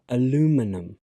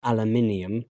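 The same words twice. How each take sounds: First: "aluminum" in four syllables, a-LOO-mi-num, stress on the second; American pronunciation. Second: "aluminium" in five syllables, al-yoo-MIN-ee-um, stress on the third; British pronunciation. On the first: Teacher showing students the American form, American pronunciation. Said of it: "but in American English, it's pronounced". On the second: Teacher showing students the British form, British pronunciation. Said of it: "British English". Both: Shown as a demonstration.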